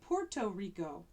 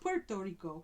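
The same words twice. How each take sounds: First: It is said with an American English pronunciation. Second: It is said with a Spanish-style pronunciation. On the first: "a lot of us in the United States ... we say Puerto Rico" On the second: "we often pronounce it not Puerto Rico"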